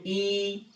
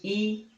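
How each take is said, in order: First: "ई" drawn out slowly as a long ee; long ee sound. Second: "ई" said short and clipped, a quick ee; short ee sound. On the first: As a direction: stretch "ई" out as the long vowel. ("ई" को लंबा खींचकर बोलें) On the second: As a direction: say "ई" briefly as the short vowel. (छोटी "ई" की तरह छोटा उच्चारण) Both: Shown as a demonstration. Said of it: "या बड़ी ले लो ई".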